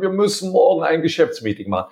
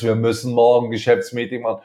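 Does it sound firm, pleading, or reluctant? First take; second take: pleading; reluctant. First: It is said pleadingly, like asking a favor. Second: It is said reluctantly, with resignation.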